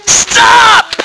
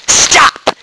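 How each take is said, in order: First: Sharp stop. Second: Whispered Stop; hushed stop. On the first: Calling the downcast listeners to halt, a high sharp shout. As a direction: cut them off hard. Preacher halts the spiral. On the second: Voicing Therese to a discouraged soul, hushed whisper. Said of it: "Therese says". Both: Acted.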